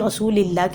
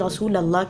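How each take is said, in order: First: An i vowel follows the l sound. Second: Rasul and Allah are said as separate words. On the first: "कभी रसूलिल्लाह कह" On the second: "हम गलती करते हैं वो ये कि हम कभी रसूल अल्लाह कहते हैं"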